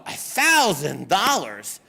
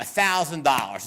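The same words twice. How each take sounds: First: Mock-shocked repeat of the price; incredulous echo. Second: Said in the usual way. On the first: Client hearing the lawyer's price, incredulous. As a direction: throw the figure back in disbelief, swooping on THOUSAND.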